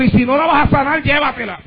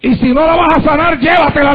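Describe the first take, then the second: First: Put-on a child's plea, dropping to a hush at the end; pleading prayer, fading softer. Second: Emphatic pleading prayer. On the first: Preacher retelling his daughter's prayer, pleading and fading. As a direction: let the plea sink away on llévatela. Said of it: "Y le dijo al Señor". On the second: Retold or imitated. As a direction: hammer the plea home to the congregation. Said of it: "le dijo".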